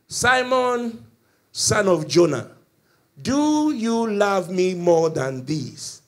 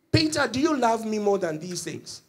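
First: Loud, drawn-out preaching call; solemn questioning. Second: Higher-pitched, quicker-flowing question; direct questioning. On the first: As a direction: voice Jesus calling Peter out, slow and resounding. Jesus solemnly questions Peter. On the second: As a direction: put the question to Peter directly, without drawing it out. Repeats Jesus' question less drawn out. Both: Acted.

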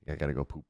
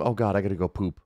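First: Much softer muttered repeat; quiet repeat. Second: Said in the usual way. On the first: Real, not acted. Player repeating joke to self, much softer. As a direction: drop it to a murmur.

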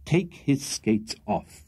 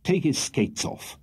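First: Very slow, each word set down; firm. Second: Slow, firm order; stern. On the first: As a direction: repeat the order, unyielding. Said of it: "repeated Mister Pickwick firmly". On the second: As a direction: lay down the command. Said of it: "said in a stern voice". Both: A narrator's reading.

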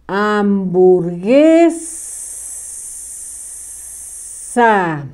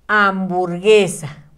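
First: "Hamburguesa" stretched very slowly, each sound drawn out; slow dictation. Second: Said in the usual way. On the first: Shown as a demonstration. Teacher dictating the word to pupils, very slow. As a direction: spell "Hamburguesa" out by ear, very slow. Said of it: "se le escribe una letra en medio que no suena". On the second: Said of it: "la de viborita".

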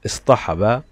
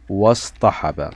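First: "اصطحب" said alone as istahaba; initial alif sounded. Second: "واصطحب" joined as wastahaba; silent alif. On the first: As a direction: open "اصطحب" on an i vowel. (نطق «اصطحب» منفردة بألف منطوقة) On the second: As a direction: glide from wa into the s of "واصطحب". (نطق «واصطحب» موصولة دون ألف) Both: Shown as a demonstration. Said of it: "لم ننطق الألف".

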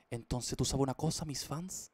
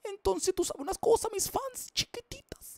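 First: Said in the usual way. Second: Much higher, louder cartoon squeak; squeaky silly voice. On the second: Streamer teases his fans in a high squeaky voice. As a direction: squeak it like a tiny cartoon creature.

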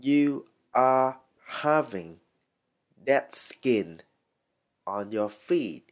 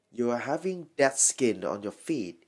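First: "You are having Dead skin" slowly, in separated chunks; slow teaching model of "Dead skin on your feet"; word by word. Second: Said in the usual way. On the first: Shown as a demonstration. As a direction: pause before "Dead skin" and after it. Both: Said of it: "các bạn có thể nói là".

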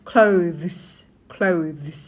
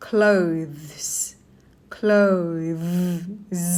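First: "clothes" in one go, sounds run together; joined-up pronunciation. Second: "clothes" stretched, lingering on the buzzed ending; slow careful pronunciation. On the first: Teacher now links the sounds, joined-up "clothes". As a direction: say "clothes" as one connected syllable. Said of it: "ทำต่อกันทีนี้". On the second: Teacher models a word many ask about, slow "clothes". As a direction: draw out "clothes", lower, every sound separate. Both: Shown as a demonstration.

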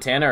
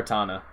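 First: Tana with first A as in "tan"; flat-A pronunciation. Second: Tana with first A as "ah"; open-A pronunciation. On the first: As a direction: say Tana to rhyme with "banana". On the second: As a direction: say Tana as TAH-nuh. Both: Shown as a demonstration. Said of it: "Is it Tana or Tana".

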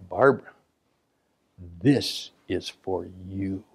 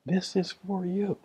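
First: Slow, hushed and intimate; soft dedication. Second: Softer, slow tender line; soft repeat. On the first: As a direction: say it slowly as a personal gift. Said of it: "and I would say". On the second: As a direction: let it land gently. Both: Retold or imitated.

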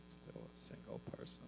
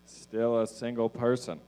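First: Very soft, voiceless whisper; barely audible whispered repeat; whispered aside. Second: Said in the usual way. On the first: Real, not acted. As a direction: whisper it to yourself as an echo. Same line repeated as whispered aside.

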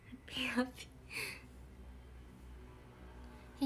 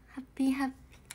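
First: ハッピーハッピー whispered very slowly and softly. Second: Said in the usual way. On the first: Real, not acted. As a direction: stretch ハッピーハッピー out in a hush. Repeats the greeting as whisper. (ゆっくりささやくハッピーハッピー)

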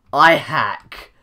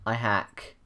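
First: I hack yelled loudly, falling at the end; mock shouted confession. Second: Said in the usual way. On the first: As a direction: shout I hack as a joke boast.

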